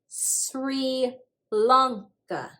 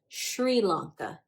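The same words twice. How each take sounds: First: It begins with a plain s sound. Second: It begins with a sh sound.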